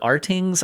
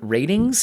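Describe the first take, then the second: First: It begins with the letter name 'ar'. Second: It sounds like the word 'ratings'. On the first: "or Artings" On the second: "pronounce that as Ratings"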